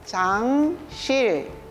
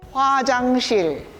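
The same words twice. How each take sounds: First: The word is said slowly. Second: The word is said quickly.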